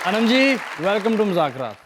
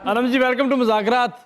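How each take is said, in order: First: It is said in a loving tone. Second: It is said in an angry tone.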